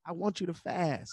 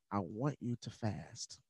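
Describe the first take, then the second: First: Higher and more pressing, repeating the order; pastor insisting. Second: Slow, soft and firm, like a pastor's order; a calm, deliberate command; pastor's instruction. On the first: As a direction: insist again, more urgently. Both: Retold or imitated.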